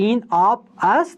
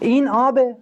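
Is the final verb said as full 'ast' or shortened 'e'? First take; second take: full 'ast'; shortened 'e'. First: The full verb 'ast' is said at the end. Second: The verb is shortened to a final 'e' sound.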